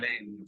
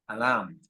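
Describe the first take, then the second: First: The 'ai' vowel is pronounced like 'e'. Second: The 'ai' vowel is not pronounced like 'e'. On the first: The speaker calls it wrong. "no se dice" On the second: The speaker calls it right. "se dice"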